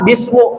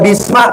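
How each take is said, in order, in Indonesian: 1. Kata itu berakhir dengan vokal u. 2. Kata itu berakhir dengan vokal a. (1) "Nggak boleh dibaca" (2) "Nggak boleh dibaca bisma"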